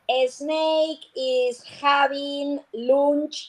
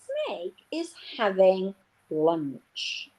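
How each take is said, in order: First: It is said with a Spanish accent. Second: It is said with an English accent. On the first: The speaker calls it wrong. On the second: The speaker calls it right.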